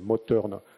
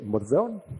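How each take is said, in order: First: The th is said as a plain t. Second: The th is said like English th. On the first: "en alsacien, on ne prononce pas le T H comme en anglais" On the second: "si je parlais anglais, je dirais"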